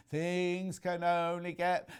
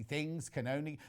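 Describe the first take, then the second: First: Slow sung line on held notes; sung, break into song, stretching each word; sung lyric. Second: Said in the usual way. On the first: Real, not acted. Presenter turning a viewer's message into song, sung.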